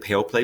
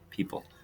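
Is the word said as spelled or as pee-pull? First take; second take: as spelled; pee-pull. First: Each written letter is sounded out separately. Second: It is said smoothly as pee-pull. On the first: The speaker calls it wrong. "It looks like pale play" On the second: The speaker calls it right. "but we say people"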